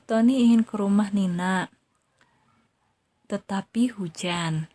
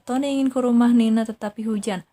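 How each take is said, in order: First: There is a long pause after 'Nina'. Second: It is read straight through with no pause. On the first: The speaker calls it right. "teteh berhenti dulu empat detik" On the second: The speaker calls it wrong. "dibacanya jangan"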